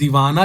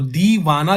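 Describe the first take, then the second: First: The first vowel is short. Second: The first vowel is long. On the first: "इस case में वन डबल two हो जाएगा" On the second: "इस case में ट्रिपल two हो जाएगा"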